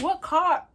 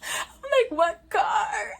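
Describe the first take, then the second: First: High, puzzled question; ask, not seeing any car; clueless about the oncoming car; confused. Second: High, laughing through the words; laughing at her own cluelessness. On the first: Retold or imitated. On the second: Real, not acted. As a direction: crack up while repeating it. Laughing while retelling.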